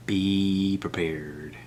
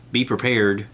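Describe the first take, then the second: First: Very slow, softer, dark-toned menace; ominous warning. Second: Said in the usual way. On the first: Shown as a demonstration. Warning Netflix viewers, slow ominous trailer voice. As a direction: drag it out like a horror trailer.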